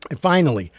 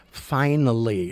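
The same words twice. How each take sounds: First: Finally said louder, falling; emphatic finally. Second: Finally stretched slowly; slow, savoured finally; drawn-out finally. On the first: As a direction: hit finally firmly. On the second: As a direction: drag out finally. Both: Shown as a demonstration.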